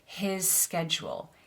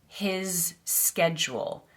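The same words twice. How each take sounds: First: The two s sounds are joined together. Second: The two words are said separately. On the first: The speaker calls it right. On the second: The speaker calls it wrong.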